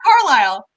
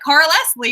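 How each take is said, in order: First: The name is said as two syllables, Car-lisle. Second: The name is said as three syllables, Carl-Les-lie. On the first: The speaker calls it right. "And then I'm like Carlisle" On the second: The speaker calls it wrong. "I just was like Carl Leslie"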